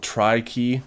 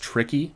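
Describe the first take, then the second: First: The first syllable sounds like 'try'. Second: The first syllable sounds like 'trick'. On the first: The name joins 'three' and 'key'. "this one's called Tri-Key" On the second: The name sounds like the word for difficult. "it's actually pronounced Tricky"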